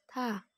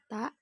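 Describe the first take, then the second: First: The consonant is released with audible breath. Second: The consonant is released without audible breath. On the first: The speaker calls it right. "tapi tha" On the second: The speaker calls it wrong. "jadi bukan ta"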